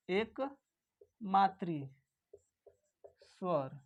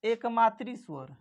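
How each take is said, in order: First: एकमात्री drawn out very slowly, syllable by syllable; teacher spelling out एकमात्री at a crawl; slow dictation. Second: Said in the usual way. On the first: Shown as a demonstration. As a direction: say एकमात्री slowly so the class can write it. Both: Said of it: "इसे हम लोग क्या दूसरे नाम से जानते हैं?".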